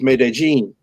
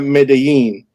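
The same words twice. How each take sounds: First: The name is said with the Colombian pronunciation. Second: The name is said with a non-Colombian pronunciation. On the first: This is how people in Colombia say it. The speaker calls it right. "everybody knows it's" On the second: This is how outsiders say it. The speaker calls it wrong. "It's not Medellin. That's not how you say it in Colombia"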